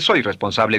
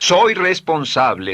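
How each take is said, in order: First: It is said flatly, without feeling. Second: It is said with strong feeling. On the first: The speaker calls it wrong. "no dice soy responsable" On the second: The speaker calls it right. "dice soy responsable ... emociónelo, envuélvalo con emoción"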